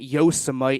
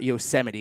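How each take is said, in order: First: It is said to rhyme with Vegemite. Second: It is said without rhyming with Vegemite. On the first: The speaker calls it wrong. "calling it Yosemite" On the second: The speaker calls it right. "not Yosemite"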